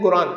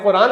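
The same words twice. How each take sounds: First: "قرآن" with a hard g in place of q; Egyptian pronunciation. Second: Said in the usual way. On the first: Shown as a demonstration. Showing listeners how Egyptians say it, "قرآن" with g for q. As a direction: say "قرآن" starting with g, as in Guran. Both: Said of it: "قاف کو گاف بولتے ہیں".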